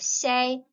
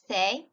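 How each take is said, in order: First: It begins with an s sound. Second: It begins with a th sound. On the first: This is the Latin American pronunciation. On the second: This is the pronunciation used in Spain.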